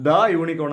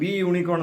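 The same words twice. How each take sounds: First: ദ short before unicorn; short "tha". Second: ദി with an ee before unicorn; wrong "thee" form. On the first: Teacher gives the answer to learners, ദ short before unicorn. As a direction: say ദ with an open vowel, not "thee". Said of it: "അതിന് പകരം എന്ത് പറഞ്ഞു". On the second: Teacher names what wasn't said, ദി as "thee" before unicorn. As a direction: use "thee" for ദി before a Y sound. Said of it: "എന്ന് പറഞ്ഞില്ല". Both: Shown as a demonstration.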